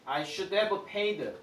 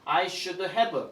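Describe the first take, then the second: First: "I should have paid" said very slowly, "have" stressed; teacher spelling out "have paid" slowly; slow careful read. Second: "have" leaned on and falling; teacher stressing "have". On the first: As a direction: drag it out word by word. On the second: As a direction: hit the word "have" with a falling tone. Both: Shown as a demonstration.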